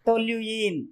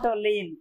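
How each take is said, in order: First: The word is said as three syllables, 'tolyooin'. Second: The word is said as two syllables, 'toleen'. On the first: The speaker calls it right. "Correct pronunciation అయితే టొల్యూయిన్" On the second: The speaker calls it wrong. "టొలీన్ అంటున్నారా?"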